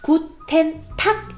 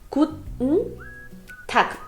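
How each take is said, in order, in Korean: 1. guten은 goo-ten처럼 두 음절을 온전히 발음해요. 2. guten은 t 소리를 잡아 두었다가 n 소리로 끝나요. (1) "굿텐이 아니라" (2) "굿에 디귿이 들어가고 그 다음에 응 한다는 느낌으로"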